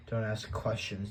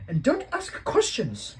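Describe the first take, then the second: First: Said in the usual way. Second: Much higher, loud and slow, stern; Aunt Petunia scolding. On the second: A narrator's reading. Aunt forbidding questions, slow, high and stern. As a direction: shut him down firmly. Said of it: "she said".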